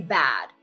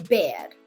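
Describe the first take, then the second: First: It is said in a general, non-New York accent. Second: It is said in a strong New York accent. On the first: "They don't say bad" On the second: "They say bad"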